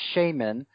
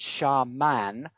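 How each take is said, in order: First: The stress is on the first syllable. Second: The stress is on the second syllable. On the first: "I've always cringed when I hear it pronounced shaman" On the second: "with the stress on the second syllable, and both syllables with a soft A"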